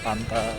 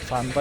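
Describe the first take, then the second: First: The word begins with a P sound. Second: The word begins with an F sound. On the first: "kalau Sunda itu dia bukan F ya, tapi P ya" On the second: "dia bukan F ya, tapi P ya"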